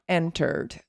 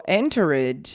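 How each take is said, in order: First: ENTERED in two syllables, en-terd; correct short ending. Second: ENTERED stretched slowly into en-ter-ED; wrong ed ending. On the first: Teacher gives the right form, "entered" as en-terd. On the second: Teacher contrasts wrong with right, "entered" slowly as en-ter-ed. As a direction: say "entered" with a full extra ED syllable. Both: Shown as a demonstration. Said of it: "is not entered".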